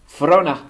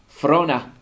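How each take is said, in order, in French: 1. Le T ne se prononce pas et 'of' devient 'a'. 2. Le T ne se prononce pas et 'of' devient 'a'.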